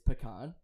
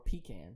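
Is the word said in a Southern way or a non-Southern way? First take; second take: non-Southern; Southern. First: It is said without the Southern 'pea can' sound. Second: It is said the Southern way, like 'pea can'. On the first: "the way I say it" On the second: "which is like how you say it in the South"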